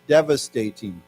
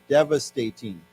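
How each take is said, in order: First: Devastating said once more, falling; repeat the word. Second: Devastating said clearly, falling; model word. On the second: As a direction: say devastating for students to copy. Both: Shown as a demonstration. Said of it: "why don't we say this".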